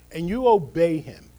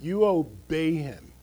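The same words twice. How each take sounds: First: Obey him punched loud; stress on obey. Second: You obey him said slow and deliberate; slow each word of you obey him; underlined, slow. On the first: Pastor urging believers to obey, emphatic stress. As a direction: underline obey him firmly. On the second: Pastor underlining obedience to congregation, slow emphasis. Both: Real, not acted. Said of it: "I want to just underline that".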